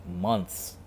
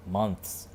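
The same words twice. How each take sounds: The two takes are said the same way.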